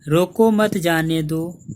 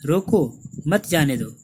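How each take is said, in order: First: It is said without any pause. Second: There is a pause after मत.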